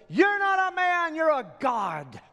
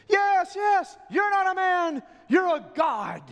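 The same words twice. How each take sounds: First: High, loud adoring yell; one voice crying out in worship; crowd yell. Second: High, loud cheering shout; the whole crowd roars agreement; full-throated acclaim for the king. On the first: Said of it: "one of them in the crowd yells". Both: Acted.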